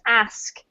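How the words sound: It is said in a northern British accent. "from the north of the U K"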